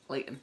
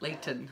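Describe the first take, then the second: First: The middle T is dropped. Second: The middle T is clearly pronounced.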